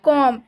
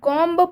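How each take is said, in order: First: No b sound is pronounced at the end. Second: A b sound is pronounced at the end. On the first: The speaker calls it right. "इसे हम पढ़ेंगे कॉम, क्योंकि इसमें बी silent है" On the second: The speaker calls it wrong. "अगर हम कॉम्ब पढ़ेंगे तो ये गलत उच्चारण हो जाएगा"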